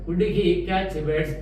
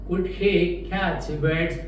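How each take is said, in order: First: The sentence is said at a fast pace. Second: The sentence is said at a slower pace.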